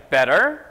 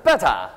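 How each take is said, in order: First: American "Better", flapped t, rising; American accent. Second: British drill take, "betta"; British accent. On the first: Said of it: "오른손은 제가". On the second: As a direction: lower British "Better", popped t. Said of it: "왼손은". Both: Shown as a demonstration.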